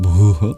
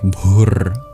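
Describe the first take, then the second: First: The word ends with a vowel. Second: The word ends with an R sound. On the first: "than bhu" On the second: "it will actually sound more like bhur"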